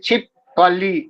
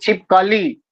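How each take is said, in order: First: The stress falls on the second syllable. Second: The stress falls on the last syllable. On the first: The speaker calls it wrong. "दूसरे अक्षर पर बल देता है" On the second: The speaker calls it right. "अंतिम अक्षर पर बल देकर"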